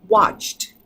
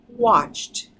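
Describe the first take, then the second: No difference in how they are said.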